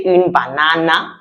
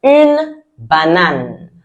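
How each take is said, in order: First: Une banana with English a ending, the wrong way; wrong English take. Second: Une banane slow, banane with flat French a's; correct French take. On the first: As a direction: say une banana as a learner mistake. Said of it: "I didn't say une banana". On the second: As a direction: give Une banane the right French way, slowly. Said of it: "I said what?". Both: Shown as a demonstration.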